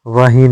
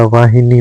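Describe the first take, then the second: First: वाही missing the नि; wrong form. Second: वाहिनी in three syllables; correct form. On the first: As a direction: say वाही short. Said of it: "नहीं होता". (वाही, नि के बिना) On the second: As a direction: sound हि and नी in वाहिनी. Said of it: "होता है". (वाहिनी में हि-नी) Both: Shown as a demonstration.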